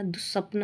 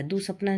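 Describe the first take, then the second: First: दुस्वप्न ending on the cluster pn; no long aa after दुस्वप्न; correct form. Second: दुसपना ending in naa; wrong form. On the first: Teacher correcting the word, दुस्वप्न ending in pn. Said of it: "होता है". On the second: Teacher showing the error, दुसपना ending in naa. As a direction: add long aa at the end of दुसपना. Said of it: "नहीं होता". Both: Shown as a demonstration.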